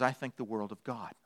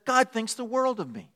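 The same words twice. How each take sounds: First: Low, very soft, adoring dog; hushed voice of humble devotion; devoted dog. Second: High, softened, preening cat; lifted voice of a conceited cat; self-adoring cat. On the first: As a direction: drop it low and reverent. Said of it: "And a dog says". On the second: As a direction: say it high and pleased with yourself. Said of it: "A cat says". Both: Acted.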